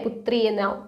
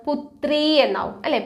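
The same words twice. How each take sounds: First: Breathy whispered repeat, softer. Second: Said in the usual way. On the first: Real, not acted. Teacher whispering the Hindi word back to her students. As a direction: drop to a whisper for the answer.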